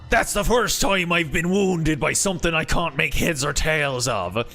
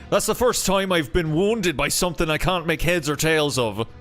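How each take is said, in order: First: It is said in a gruff pirate accent. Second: It is said without the gruff pirate sound.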